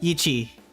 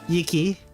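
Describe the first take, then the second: First: The middle consonant is a ch sound. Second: The middle consonant is a hard k sound. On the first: "pronounce like a K or like a C H? ... There we go" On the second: "do I pronounce it like a K?"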